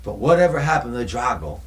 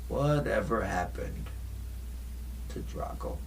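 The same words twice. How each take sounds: First: Said in the usual way. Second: Hushed, mysterious. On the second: Shown as a demonstration. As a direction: let the question sink to a secret. Hushed dramatic repeat of question.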